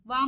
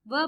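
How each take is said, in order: First: वा with a long "aa"; wrong long vowel. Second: व as a short "va"; short vowel. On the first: Teacher showing what not to read, वा with long "aa". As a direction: lengthen वा into an open "vaa". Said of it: "वा मत पढ़िए". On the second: Teacher showing the right reading, व with short vowel. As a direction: keep व brief, with no long "aa". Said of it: "व पढ़िए". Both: Shown as a demonstration.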